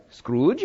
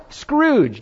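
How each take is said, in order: First: Puzzled, badly faked Indian accent. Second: High-pitched, acted instant recognition; excited recognition. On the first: Someone in India baffled by the word, bad Indian accent. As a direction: ask it with a rough attempt at an Indian accent. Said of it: "That's a horrible Indian accent". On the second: American who knows the character at once, acted excited recognition. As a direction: say it high, as a word you know well.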